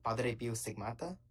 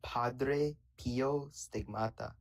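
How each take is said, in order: First: Padre Pio Stigmata with a tapped Italian r, slow; put-on Italian accent. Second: Padre Pio Stigmata said very slowly, syllable by syllable; slow careful pronunciation. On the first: Real, not acted. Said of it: "you're not talking like that when you say any other word". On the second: Shown as a demonstration. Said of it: "Pad-, Padre Pio Stigmata".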